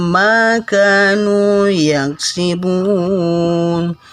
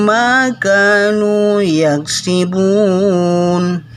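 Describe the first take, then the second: Both takes have the same delivery.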